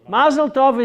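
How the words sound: It is said with a Yiddish pronunciation, 'mazel'. "Mazel tov is Yiddish"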